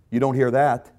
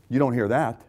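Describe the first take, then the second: No difference in how they are said.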